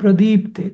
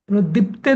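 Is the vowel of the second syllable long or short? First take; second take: long; short. First: The second-syllable vowel is said long. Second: The second-syllable vowel is said short. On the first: The speaker calls it right. "दी दीर्घ करायचा तुला" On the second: The speaker calls it wrong. "प्रदीप्ते नाही म्हणायचं"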